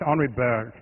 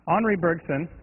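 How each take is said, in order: First: The name is said French-style with its final sounds dropped. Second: The name is said with a Texan-tinged French accent. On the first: "with French, you drop everything" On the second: "which I'm definitely saying right with a French accent um, combined with Texan"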